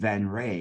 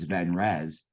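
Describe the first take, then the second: First: The name ends with a 'ray' sound. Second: The name ends with a 'rez' sound. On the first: The speaker calls it right. "I was glad that you said Van Ray" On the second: The speaker calls it wrong. "I've been mispronouncing it, thinking it's Van Rez"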